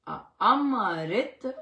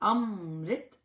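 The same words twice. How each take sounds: First: The m is followed by a full vowel. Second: The m joins the next sound without a vowel. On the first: The speaker calls it wrong. "अम्मा म मतलब पूरा नहीं" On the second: The speaker calls it right. "अमृत इस तरह आएगा"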